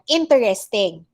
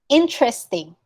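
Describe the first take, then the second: First: The middle e sound is pronounced. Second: The middle e sound is dropped. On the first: The speaker calls it wrong. "sometimes they accept this one" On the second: The speaker calls it right. "We don't say the e"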